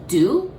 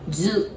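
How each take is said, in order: First: The syllable begins with a d sound. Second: The syllable begins with a z sound. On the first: The speaker calls it wrong. "you might almost want to say D U, do" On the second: The speaker calls it right. "but it pronounces zu"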